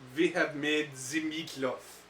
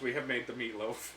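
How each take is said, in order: First: It is said in a put-on German accent. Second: It is said in the speaker's normal accent.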